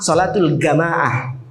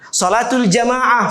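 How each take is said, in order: First: The word jamaah begins with a hard g. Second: The word jamaah begins with a j sound.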